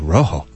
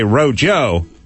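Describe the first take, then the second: First: The middle consonant is an H sound. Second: The middle consonant is an English J sound. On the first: The speaker calls it right. "you guys pronounce the J as the H, so I say Rojo" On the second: The speaker calls it wrong. "I could read it and say Rojo"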